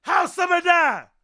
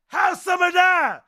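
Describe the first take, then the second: No difference in how they are said.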